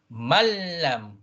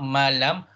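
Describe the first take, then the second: First: The l is doubled and pressed harder. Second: The l is short, without extra pressure. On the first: The speaker calls it right. "you raise your notch a little bit" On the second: The speaker calls it wrong. "not malam"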